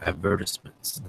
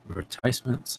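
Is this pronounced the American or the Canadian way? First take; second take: Canadian; American. First: It is said the Canadian way. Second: It is said the American way.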